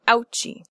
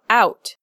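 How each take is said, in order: First: It ends in a ch sound plus an extra vowel. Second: It is one syllable ending in a stopped t. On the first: The speaker calls it wrong. "not ouchie" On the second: The speaker calls it right. "one syllable with a stop consonant"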